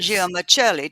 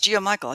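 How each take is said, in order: First: The name is said with Italian-style sounds. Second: The name is said with plain English sounds. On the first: "I'm going to say it's Italian way is" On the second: "it's Giamichael"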